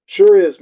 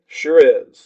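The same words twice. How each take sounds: First: SURE hit firmly and a bit louder; emphatic sure. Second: Said in the usual way. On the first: A narrator's reading. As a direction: lean into "Sure is" with conviction. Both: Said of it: "I say".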